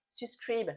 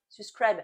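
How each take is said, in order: First: "Subscribe" with a French "ee" in the last syllable; French-accented English. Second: "subscribe" with an open "a" in the last syllable; French-accented English retry. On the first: French vlogger poor at English asking viewers, "Subscribe" said like "sys-kreeb". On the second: French vlogger correcting her English, "subscribe" said like "sys-krab". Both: Real, not acted. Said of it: "mon accent est à chier".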